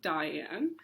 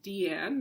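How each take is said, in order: First: The name begins with a 'die' sound. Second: The name begins with a 'dee' sound. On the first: The speaker calls it wrong. "not Diane" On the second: The speaker calls it right. "it's pronounced Deanne"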